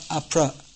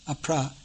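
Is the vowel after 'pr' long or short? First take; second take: short; long. First: The vowel after pr is short. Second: The vowel after pr is long. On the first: The speaker calls it wrong. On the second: The speaker calls it right.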